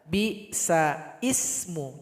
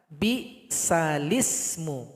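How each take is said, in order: First: Ismu starts with a separate glottal catch. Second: The l is joined straight onto ismu. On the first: The speaker calls it wrong. "Salah kalau dibaca bi sa ismu" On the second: The speaker calls it right. "Sehingganya mesti dibaca bi salismu"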